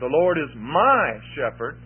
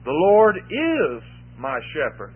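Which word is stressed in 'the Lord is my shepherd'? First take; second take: my; is. First: The word 'my' carries the main stress. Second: The word 'is' carries the main stress. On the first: The relationship is a personal one. "we could talk about that personal relationship between me and I" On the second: He is the shepherd right now. "He is my shepherd now"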